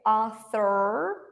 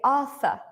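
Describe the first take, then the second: First: It is said in a non-British accent. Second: It is said in a British accent. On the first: "because I'm British, I don't say Arthur" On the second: "I just say Arthur"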